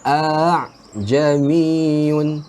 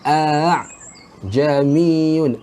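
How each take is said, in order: No difference in how they are said.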